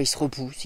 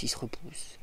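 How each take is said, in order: First: Said in the usual way. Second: Breathy whispered repeat; whispered echo. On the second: Real, not acted. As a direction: let it fade to a whisper.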